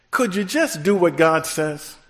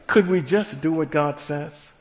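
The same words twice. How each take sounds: First: Preacher's call. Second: Says the call again through a laugh; light chuckle on the rerun; laughing repeat. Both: Shown as a demonstration. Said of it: "That's how we talk".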